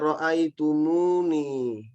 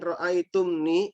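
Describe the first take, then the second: First: A linking u vowel joins the two parts. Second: The two parts are joined without a linking vowel. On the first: The speaker calls it right. "Makanya kemudian ditambah wawu juga" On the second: The speaker calls it wrong. "itu susah mengucapkannya, nggak enak gitu"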